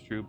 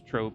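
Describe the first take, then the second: First: The vowel is pronounced like 'oo'. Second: The vowel is pronounced like 'oh'. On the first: The speaker calls it right. "it's Wanderer's Troop" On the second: The speaker calls it wrong. "It's not Wanderer's Trope"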